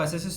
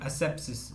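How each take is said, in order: First: The word has no p sound in it. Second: The word has a p sound before s. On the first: The speaker calls it wrong. "एसेसिस ना बोल के" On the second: The speaker calls it right. "एसेप्सिस कहा जाएगा इसको"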